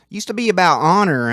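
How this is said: It is said in an imitated mobster accent.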